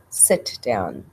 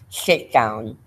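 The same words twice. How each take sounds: First: The s sound is clear, with no lisp. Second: The s sound is lisped, air escaping sideways. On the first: The speaker calls it right. "instead of" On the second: The speaker calls it wrong. "a lateral lisp, one that sounds like this"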